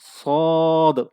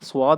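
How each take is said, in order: First: The s is said with flat, unrounded lips. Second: A w-like lip-rounded sound follows the s. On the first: The speaker calls it right. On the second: The speaker calls it wrong.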